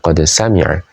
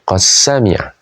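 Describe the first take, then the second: First: The d is pronounced separately before the s. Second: The d merges into the following s sound. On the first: "bukan qad sami'a" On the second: "dengan mengidghamkan dalnya ke huruf sin"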